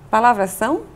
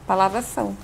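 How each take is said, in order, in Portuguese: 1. A entonação sobe no final, como uma pergunta. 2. A entonação desce no final, como uma afirmação.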